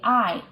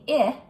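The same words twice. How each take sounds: First: The vowel is the long i sound. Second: The vowel is the short i sound. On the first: The speaker calls it right. "It's telling I to say its name" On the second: The speaker calls it wrong. "don't say I"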